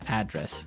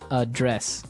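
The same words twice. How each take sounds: First: The stress is on the first syllable. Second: The stress is on the second syllable.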